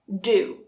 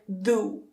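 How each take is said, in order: First: The d is made behind the teeth. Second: The d is made against the teeth. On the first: The speaker calls it right. "We bring it back a little bit" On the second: The speaker calls it wrong. "you say it with your tongue touching the back of your teeth"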